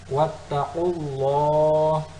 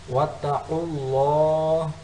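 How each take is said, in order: No difference in how they are said.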